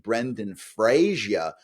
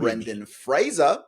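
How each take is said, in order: First: The surname is said as three syllables, 'Fray-zee-er'. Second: The surname is said as two syllables, 'Fray-zer'. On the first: The speaker calls it wrong. "which is not his name" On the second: The speaker calls it right. "I had to say his name right"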